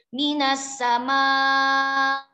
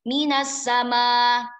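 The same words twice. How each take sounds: First: The final vowel is held medium length. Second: The final vowel is held short. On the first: "minas sama tawasud" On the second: "yang pertama qasr"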